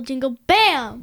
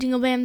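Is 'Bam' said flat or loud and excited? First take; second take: loud excited; flat. First: The word bam is shouted loudly and excitedly. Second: The word bam is said flatly, without extra force. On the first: "They always go, like" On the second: "they don't say, like"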